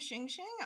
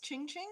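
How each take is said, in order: First: The name begins with a soft 'sh' sound. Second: The name begins with a hard 'ch' sound. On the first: This is how the listener has been saying it. The speaker calls it wrong. "you've been saying Xing Xing" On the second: This is the name's actual pronunciation. The speaker calls it right. "it's Ching Ching"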